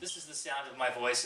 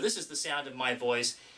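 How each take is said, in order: First: The voice carries the room sound of a basement. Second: The voice carries little room sound, a treated lab. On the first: "in the basement" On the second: "in the A V Room Service Acoustics Lab"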